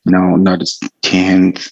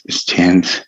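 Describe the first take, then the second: First: "tenth" said slowly, low and drawn out as the wrong example; slow, careful demo of "tenth". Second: "tenth" said low and short with the th sound; crisp corrected "it's tenth"; corrected pronunciation. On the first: Teacher showing students how not to say "tenth". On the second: Teacher showing students the right way to say "tenth". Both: Shown as a demonstration.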